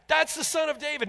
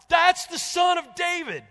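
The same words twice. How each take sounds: First: High, loud shout, first of a building series. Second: Very high, slow, full-throated shout; shouting more and more. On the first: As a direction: start the cry already raised. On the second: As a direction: top of the build, drowning out the crowd. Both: Retold or imitated. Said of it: "shouting it more and more".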